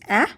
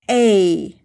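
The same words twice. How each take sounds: First: The vowel sounds like the a in apple. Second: The vowel sounds like the letter's name. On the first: "The short sound is A, like apple" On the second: "we will also need to say the long sound"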